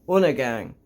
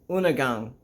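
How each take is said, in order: Both takes have the same delivery.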